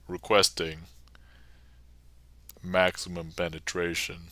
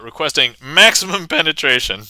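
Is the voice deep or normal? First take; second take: deep; normal. First: It is said in a put-on deep voice. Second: It is said in a normal speaking voice.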